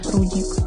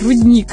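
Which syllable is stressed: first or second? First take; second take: first; second. First: The stress falls on the first syllable. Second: The stress falls on the second syllable. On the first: This is how the miners' families say it. "все знакомые нашей семьи говорили рудник. Именно так" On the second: This is the standard pronunciation. "ударение правильное"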